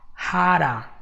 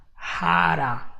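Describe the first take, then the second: First: It is fast, flapped, with 'how' shortened to 'ha'. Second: It is fast, flapped, with 'how' shortened to 'ha'.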